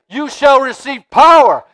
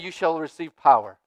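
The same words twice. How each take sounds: First: It is said loudly and forcefully. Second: It is said quietly in a small voice. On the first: It is meant to stir up excitement. "I got to say it loud" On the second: It carries the same truth without hype. "there's just as much power and truth in this small voice"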